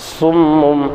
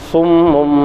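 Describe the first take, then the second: Both takes have the same delivery.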